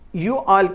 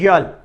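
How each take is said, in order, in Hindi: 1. यह दो पूरे शब्दों की तरह बोला जाता है। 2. यह एक ही अक्षर में सिकुड़ जाता है। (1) "यू ऑल के लिए"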